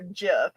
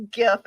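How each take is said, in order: First: Gif starting with a j sound; soft-g gif. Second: Gif starting like "give"; hard-g gif. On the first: Co-host giving the other option, gif said like jiff. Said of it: "guy who created it say". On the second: Co-host comparing a similar argument, gif said with hard g. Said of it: "it's like the argument of". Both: Shown as a demonstration.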